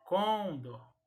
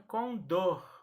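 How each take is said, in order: First: "com dor" as CON-dor; wrongly stressed "com dor", weight on the first syllable. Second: "com dor" as con-DOR, drawn out; slow "com dor", weight on the final syllable; stress on last syllable. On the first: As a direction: punch COM in "com dor", let dor fall away. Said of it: "e não". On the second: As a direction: land hard on DOR in "com dor". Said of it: "a sílaba mais forte será a última". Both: Shown as a demonstration.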